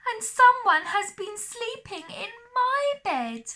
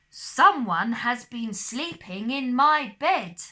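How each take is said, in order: First: A wee little high baby bear voice. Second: A great big deep papa bear voice.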